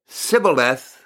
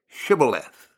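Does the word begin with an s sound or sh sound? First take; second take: s; sh. First: The word begins with a plain s sound. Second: The word begins with a sh sound. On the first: The speaker is from that tribe. The speaker calls it wrong. "because he could not pronounce the word correctly" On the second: The speaker is not from that tribe. The speaker calls it right. "S-H, Shibboleth"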